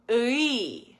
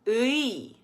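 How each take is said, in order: First: It is said with spread, unrounded lips throughout. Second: It is said with spread, unrounded lips throughout.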